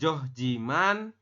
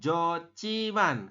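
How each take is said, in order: First: The h and j are sounded separately. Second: The h and j merge into aspirated ch. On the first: This is how the word is written. "Yang atas tulisannya Johjiman" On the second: This is how the word is actually read. "kita membacanya Jociman"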